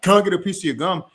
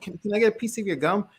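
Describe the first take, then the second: First: It sounds loud and forceful, like yelling. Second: It sounds hesitant and pleading, with a stammer. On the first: The asker seems aggressive and overbearing. "That's like a yelling frame" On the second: The asker seems insecure and desperate. "That tonality is like a needy frame"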